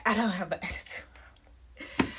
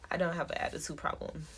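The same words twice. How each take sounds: First: Words breaking up into breathy laughter; laughing. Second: Said in the usual way. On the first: Real, not acted. Correcting own negative self-talk, laughing. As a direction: laugh through it, voice dropping out.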